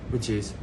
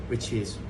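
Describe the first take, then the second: No difference in how they are said.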